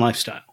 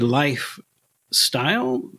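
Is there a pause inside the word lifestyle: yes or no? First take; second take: no; yes. First: It is said smoothly with no pause inside. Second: It is said with a pause between life and style. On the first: It is the ordinary, plain way anyone says it. The speaker calls it wrong. "Any yahoo can lifestyle" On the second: It is the stylish way that takes panache. The speaker calls it right. "It has no style without a pause between style and life"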